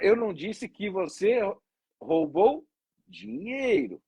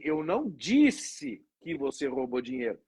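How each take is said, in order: First: The stress is on "dinheiro". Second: The stress is on "disse".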